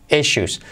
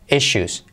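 Both takes have the same delivery.

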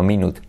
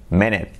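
First: Minute said with an "oot" ending; wrong-way minute with a Spanish u in the second syllable; mispronunciation. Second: English minute, ending in a weak "it"; correct English pronunciation. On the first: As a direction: say minute as mee-NOOT, as it is spelt. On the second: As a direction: say minute as MIN-it, short unstressed second vowel. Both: Shown as a demonstration. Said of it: "no minute".

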